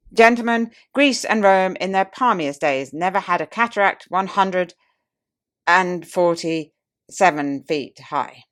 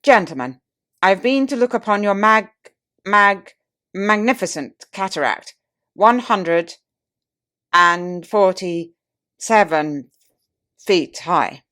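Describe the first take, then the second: First: Tipsy pompous orator. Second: Loud, stammering "mag-, mag-" and a very slow "and forty-seven"; tipsy pompous orator. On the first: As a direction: declaim with mock grandeur, dragging the final figure out. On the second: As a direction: boom like a wined-up statesman tripping over his words. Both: Retold or imitated. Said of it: "the oratorical instinct struggled with difficulties".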